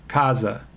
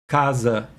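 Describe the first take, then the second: First: The final vowel is reduced, close to schwa. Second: The final vowel is reduced, close to schwa.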